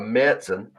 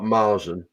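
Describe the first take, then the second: First: The first vowel is unlike the one in marzipan. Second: The first vowel is like the one in marzipan. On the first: The speaker calls it right. "which apparently is how you're supposed to pronounce it" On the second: The speaker calls it wrong. "like uncultured swines like me have been pronouncing it"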